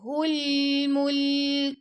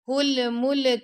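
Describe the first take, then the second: First: The l is smooth with no bounce. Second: The l has a bouncing echo release. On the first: The speaker calls it right. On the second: The speaker calls it wrong.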